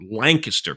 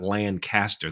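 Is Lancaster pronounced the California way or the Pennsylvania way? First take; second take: Pennsylvania; California. First: It is pronounced the way the Pennsylvania city is. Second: It is pronounced the way the California city is. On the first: This names the city in Pennsylvania. The speaker calls it right. "I'm saying it right" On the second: This names the city in California. The speaker calls it wrong. "It's not Lancaster. That's in California"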